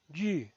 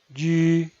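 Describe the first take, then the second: First: The pitch falls from high to low. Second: The pitch stays high and level. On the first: "El cuarto tono es un tono bajado" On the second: "El primer tono es alto y sostenido"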